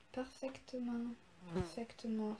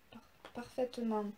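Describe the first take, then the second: First: "parfaitement" said softly with a hard k sound, "parfaiktement"; mock mispronunciation. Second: "parfaitement" said normally, no k sound; plain correction. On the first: Streamer joking about her perfect English accent, softly saying "parfaitement" wrong. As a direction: slip a k into "parfaitement", as if anglicised. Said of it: "Vous remarquerez mon accent anglais parfait". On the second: Streamer correcting her own mispronounced "parfaitement", plainly. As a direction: correct "parfaitement" after a stumbled start. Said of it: "Ça se dit même pas ce mot".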